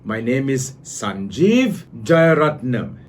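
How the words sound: A pause splits the name; pitch rises, then falls. The rise signals more to come; the fall signals the end. The speaker calls it right. "It went from low pitch to high pitch, high pitch to low pitch"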